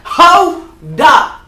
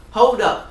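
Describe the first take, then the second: First: Loud, high call to stop everyone; loud hold up. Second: Said in the usual way. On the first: Real, not acted.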